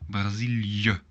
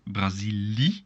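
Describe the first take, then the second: First: The final i and e are sounded separately. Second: The final i and e merge into one sound. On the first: The speaker calls it right. "make sure to pronounce them separately" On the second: The speaker calls it wrong. "So not Brazili, no, no"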